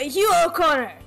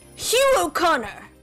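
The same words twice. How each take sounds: First: The name is said fast. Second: The name is said at normal speed.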